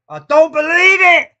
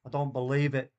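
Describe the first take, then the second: First: Same words now screamed, pitch way up; shouted disbelief. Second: Said in the usual way. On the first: Real, not acted. Commentator screams at the conceded goal in disbelief. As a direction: explode with the line.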